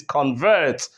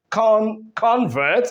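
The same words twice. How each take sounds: First: Convert with CON low and VERT stressed, falling; stress on second syllable. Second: Convert with CON high and strong; stress on first syllable. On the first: Teacher showing the verb, second-syllable stress on convert. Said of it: "when the stress goes to the second syllable". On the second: Teacher showing the noun, first-syllable stress on convert. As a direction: punch CON, restart, then convert. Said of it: "when the stress is on the first syllable". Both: Shown as a demonstration.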